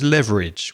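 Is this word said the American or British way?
American. It is said the American English way. "which is the way the American say it"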